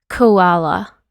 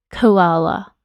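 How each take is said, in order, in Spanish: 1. La primera consonante se pronuncia con un soplo de aire. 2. La primera consonante se pronuncia con un soplo de aire.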